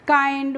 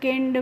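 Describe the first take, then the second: First: The vowel is a long 'eye' sound. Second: The vowel is a short 'i' sound. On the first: The speaker calls it right. "जो भी होगा last में उसे हम आई करके पढ़ रहे हैं" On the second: The speaker calls it wrong. "इस तरीके से नहीं पढ़ना है"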